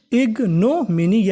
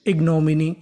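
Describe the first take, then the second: First: ignominy drawn out slowly with a swinging tune; syllable by syllable. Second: Said in the usual way. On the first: Shown as a demonstration. Teacher repeating ignominy for students, slowly, part by part. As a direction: stretch ig, no, mini apart in ignominy. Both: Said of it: "क्या बन गई".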